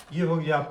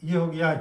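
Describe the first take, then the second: No difference in how they are said.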